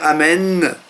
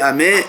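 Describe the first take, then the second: First: The end of the word is fully pronounced. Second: The end of the word is clipped short. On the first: The speaker calls it right. "au lieu de dire amen" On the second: The speaker calls it wrong. "on ne prononce pas bien la fin du mot. On dit amen"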